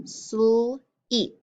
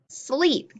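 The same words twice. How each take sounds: First: "sleep" split as "sl", pause, "eep"; sounded out. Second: "Sleep" in one piece, pitched up; blended word. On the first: Teacher gives sounds to echo, "sleep" split into sl and eep. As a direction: break "sleep" slowly after the "sl". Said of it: "echo the sounds that I say". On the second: Teacher models putting sounds together, "Sleep" blended into one word. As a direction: say "Sleep" whole and higher, without a gap. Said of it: "put them together to make a word". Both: Shown as a demonstration.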